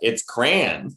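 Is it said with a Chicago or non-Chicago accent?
Chicago. It is said with a Chicago accent.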